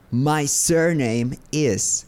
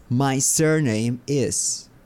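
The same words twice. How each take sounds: The two takes are said the same way.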